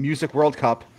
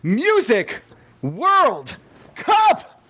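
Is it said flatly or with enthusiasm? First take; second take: flatly; enthusiasm. First: It is said flatly, without enthusiasm. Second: It is said loudly with great enthusiasm.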